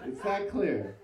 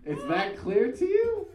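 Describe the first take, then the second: First: Said in the usual way. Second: Surprised. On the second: Retold or imitated. Stunned at Kyle's quick verdict.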